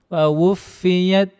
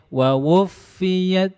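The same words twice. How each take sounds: The two takes are said the same way.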